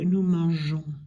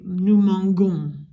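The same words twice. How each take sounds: First: The g is said as a soft g. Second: The g is said as a hard g. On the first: The speaker calls it right. "They leave the E, and then you say" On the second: The speaker calls it wrong. "if we don't add the E, it's going to say"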